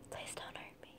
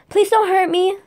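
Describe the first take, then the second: First: It is whispered with no full voice. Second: It is spoken aloud in full voice. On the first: The speaker calls it right. "There we go. There's a whisper" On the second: The speaker calls it wrong. "I said that wrong because I didn't see how she said it"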